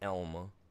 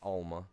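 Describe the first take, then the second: First: The name begins with an 'eh' vowel. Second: The name begins with an 'ah' vowel. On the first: The speaker calls it right. "pronounced Elma" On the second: The speaker calls it wrong. "not Alma"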